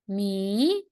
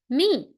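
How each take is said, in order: First: The pitch rises from middle to high. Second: The pitch falls sharply from high to low. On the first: "and second tone" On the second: "Last tone"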